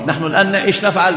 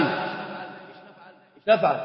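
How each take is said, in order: First: Said in the usual way. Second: Repeats the question in a low hush; whispered question. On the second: Shown as a demonstration. Teacher repeats his question to the class in a hushed whisper. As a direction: drop to a near whisper, slow.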